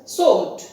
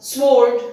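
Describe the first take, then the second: First: Sword said "sord", no w sound; sword with silent W. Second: Sword said "sword" with the w pronounced, drawn out and louder; sword with W sounded. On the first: Teacher giving the correct pronunciation of sword, silent w. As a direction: drop the w in sword. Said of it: "the sound W is dropped". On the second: Teacher showing the wrong reading of sword, w sounded. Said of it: "It is not sword". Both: Shown as a demonstration.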